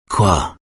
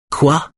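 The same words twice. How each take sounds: First: Said in the usual way. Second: "Quoi?" high and rising, irritated; annoyed. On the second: A narrator's reading. Wife repeating her husband's question, annoyed. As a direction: throw back "Quoi?" much higher with impatience. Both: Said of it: "répète-t-elle agacée".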